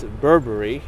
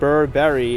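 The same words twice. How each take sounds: First: The name is said with reduced vowels. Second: The name is said with full vowels. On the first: The speaker calls it right. "it's Burberry" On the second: The speaker calls it wrong. "it's not Burberry"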